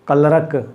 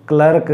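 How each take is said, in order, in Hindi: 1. स्वर 'her' वाले स्वर जैसा है। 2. स्वर 'her' वाले स्वर जैसा है।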